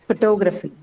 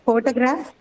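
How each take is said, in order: First: "photography" stressed on the second syllable, ending on a fall. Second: "Photograph" stressed on the first syllable, ending on a rise. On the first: Teacher contrasts derived word with base word, second-syllable stress on "photography". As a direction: put the weight on "TOG" in "photography". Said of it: "stress is now changed to the second syllable". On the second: Teacher contrasts base word with derived word, first-syllable stress on "Photograph". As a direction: hit the opening "PHO" of "Photograph". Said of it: "the stress was in the first syllable".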